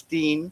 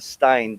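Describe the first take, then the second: First: The vowel sounds like 'ee'. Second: The vowel sounds like 'eye'. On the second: The name is an American one. "you call it a Stein, uh when when it's American"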